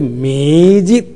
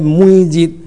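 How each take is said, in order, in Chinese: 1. 第一个音节读作'me'。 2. 第一个音节读作'mui'。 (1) "是读作每日、每甲日、暗时甲日时" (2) "唔是读作每日"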